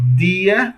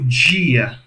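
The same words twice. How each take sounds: First: The d is plain, tongue tip at teeth. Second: The d is affricated, tongue off the teeth.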